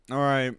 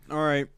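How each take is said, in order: Both takes have the same delivery.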